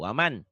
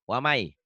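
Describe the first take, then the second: First: The final n sound is clearly pronounced. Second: The n sound merges into the following y. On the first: "Waman yabtagi tulisannya waman" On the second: "Waman jadi wamai"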